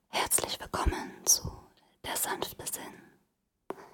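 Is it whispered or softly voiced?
whispered. It is whispered without voice.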